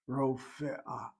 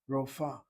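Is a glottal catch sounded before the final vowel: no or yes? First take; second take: yes; no. First: A glottal catch comes before the final vowel. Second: The word ends without a glottal catch. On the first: The speaker calls it right. "Rofe'ah is a proper pronunciation" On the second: The speaker calls it wrong. "they don't bother to sound the aleph. They say rofa"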